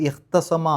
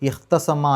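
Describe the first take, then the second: The two takes are said the same way.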